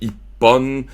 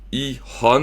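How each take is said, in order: First: The middle consonant is a doubled p sound. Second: The middle consonant is an h sound. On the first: This is the counter with the sound change applied. "mais ça devient ippon" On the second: This is the counter joined without the sound change. "c'est i-hon"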